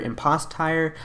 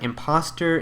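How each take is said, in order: First: The last syllable sounds like 'tire'. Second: The last syllable sounds like 'ter'. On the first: "I think it's tire" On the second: "pronounced like imposter"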